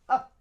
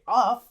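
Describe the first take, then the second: First: The word has a short schwa vowel. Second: The word has a full, longer vowel. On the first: The speaker calls it right. "we say up" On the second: The speaker calls it wrong. "We don't say of"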